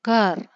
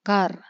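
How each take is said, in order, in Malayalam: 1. വാക്ക് സ്വരമില്ലാത്ത വ്യഞ്ജനത്തിലാണ് അവസാനിക്കുന്നത്. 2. വാക്ക് സ്വരമില്ലാത്ത വ്യഞ്ജനത്തിലാണ് അവസാനിക്കുന്നത്.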